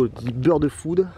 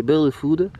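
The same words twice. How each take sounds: First: Put-on bird food in a slow, jokey English accent; mock English accent. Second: Put-on bird food in a jokey English accent; English accent on bird food, tongue in cheek; mock English accent. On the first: (accent anglais pour rire sur bird food) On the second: (accent anglais moqueur sur bird food) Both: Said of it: "avec mon accent anglais".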